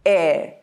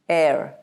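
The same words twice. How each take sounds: First: It is said in a British accent. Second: It is said in an American accent. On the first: "In the British pronunciation, notice how the word is heir" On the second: "in the American pronunciation, it is heir. The R gets rolled"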